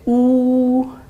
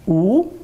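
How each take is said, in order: First: The pitch stays high and level. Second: The pitch rises from mid to high. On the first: "premier ton plat" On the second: "Deuxième ton"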